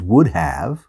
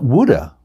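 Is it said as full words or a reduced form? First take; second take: full; reduced. First: The two words are said fully and separately. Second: The two words are blended into one reduced form.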